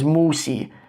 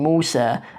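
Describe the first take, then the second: First: The name ends with a fronted 'ee' vowel. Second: The name ends with an open 'ah' vowel. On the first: This is a rare recitation style of the Quran. "as Musi" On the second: This is the usual form of the name. "you can say the name Musa"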